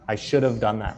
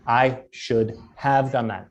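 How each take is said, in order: First: The word 'have' is reduced, sounding like 'of'. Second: The word 'have' is pronounced fully and clearly. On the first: The speaker calls it right. "It's always should have" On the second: The speaker calls it wrong. "Americans never say should have"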